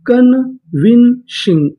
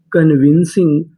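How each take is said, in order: First: convincing stretched out slowly, syllable by syllable; slow drawn-out word. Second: Said in the usual way. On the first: Shown as a demonstration. Teacher to students, drawing convincing out slowly. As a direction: draw out convincing slowly for the class. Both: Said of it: "पूरी meaning".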